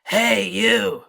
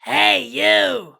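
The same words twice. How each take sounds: First: Lower-pitched growl. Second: Loud growly call, pitched very high; higher-pitched growl. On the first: Teacher offering stuck students another pitch, lower growl. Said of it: "Maybe a little lower". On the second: Teacher offering stuck students another pitch, higher growl. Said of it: "or maybe a little higher". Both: Shown as a demonstration.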